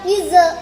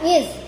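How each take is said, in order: First: The final consonant is released with a bounce. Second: The final consonant ends without any bounce. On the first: The speaker calls it wrong. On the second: The speaker calls it right.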